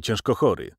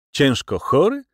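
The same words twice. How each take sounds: First: Said in the usual way. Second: High, rising echo question; raised, incredulous query; surprised. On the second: A narrator's reading. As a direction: repeat "ciężko chory" as if astonished. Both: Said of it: "rzekłem ze zdziwieniem".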